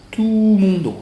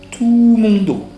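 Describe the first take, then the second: No difference in how they are said.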